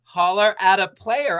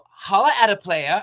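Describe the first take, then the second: First: It is said in the speaker's own plain voice. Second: It is said in Kara's Valley girl voice.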